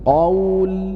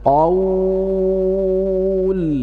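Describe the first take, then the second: First: The long vowel is held for two counts. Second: The long vowel is held for six counts. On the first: "dan dibaca dua harokat" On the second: "Yang pertama dibaca enam harokat"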